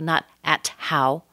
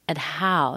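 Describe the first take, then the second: First: The T is clearly released. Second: The T is held without release. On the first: The speaker calls it wrong. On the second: The speaker calls it right. "but keep that T inside"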